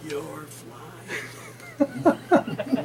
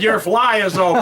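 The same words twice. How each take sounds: First: It is said very quietly, almost silently. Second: It is said louder, clearly audible.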